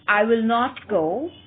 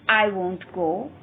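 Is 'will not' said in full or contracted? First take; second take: full; contracted. First: Will not is said as two full words. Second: Will not is contracted into one syllable, won't. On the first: "The negative form of the future indefinite tense is" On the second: "The contraction of will not is won't"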